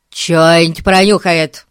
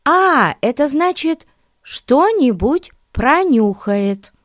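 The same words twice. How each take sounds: First: "Чё-нибудь пронюхает" mumbled, vowels swallowed; mumbled repeat. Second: "что-нибудь пронюхает" said slowly and clearly, higher; clear translation. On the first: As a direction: say "Чё-нибудь пронюхает" slurred and loud. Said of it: "повторил Эрн". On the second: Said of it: "перевела Дейзи". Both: A narrator's reading.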